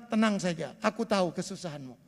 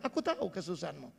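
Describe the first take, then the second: First: Soft, low voice of God comforting, a little quick; whisper-close comfort for a struggling believer; God's gentle reassurance. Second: Very soft and low, quickly spoken comfort; God's gentle reassurance. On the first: God reassuring the suffering congregation, soft and tender. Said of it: "Tuhan bilang". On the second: Preacher repeating God's promise to the congregation, hushed and tender. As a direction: hush it like a secret promise. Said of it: "Hari ini Bapak Ibu dengar". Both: Retold or imitated.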